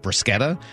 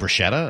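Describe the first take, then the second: First: The word has an Italian-style pronunciation. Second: The word has an English-style pronunciation. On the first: This is how it is said in Italian. The speaker calls it right. "that's the correct pronunciation of it" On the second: This is how it is commonly said in English. The speaker calls it wrong. "people will correct her and be like, oh, you mean bruschetta?"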